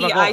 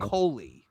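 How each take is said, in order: First: The word is said fast and shortened. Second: The word is said slowly and in full. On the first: "when you say it fast" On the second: "the word is"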